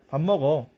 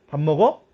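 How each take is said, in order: First: The voice falls at the end. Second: The voice rises at the end. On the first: It states what the speaker is doing. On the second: It asks whether someone is eating.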